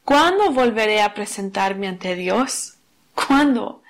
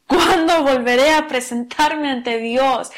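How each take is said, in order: First: Said in the usual way. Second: Slow, pleading cry of "¿Cuándo?"; anguished cry. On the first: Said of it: "no es así". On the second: Shown as a demonstration. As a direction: stretch "¿Cuándo volveré a presentarme ante Dios?" into a longing plea. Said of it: "Es más un clamor". (clamor lento y suplicante)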